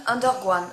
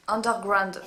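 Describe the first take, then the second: First: "Underground" botched as "under-gwan"; tongue-tied slip. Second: Said in the usual way. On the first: Real, not acted. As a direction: stumble on the "gr" of "Underground". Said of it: "je n'arrête pas de bégayer". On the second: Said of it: "de me mélanger les pinceaux".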